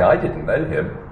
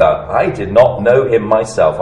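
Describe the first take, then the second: First: Said in the usual way. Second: Weight on "not" and "myself", slower; stressed myself. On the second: Shown as a demonstration. Preacher stressing that John himself did not know Jesus, slow and emphatic. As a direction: lean on "myself" to stress it was him personally. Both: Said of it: "he's emphasizing".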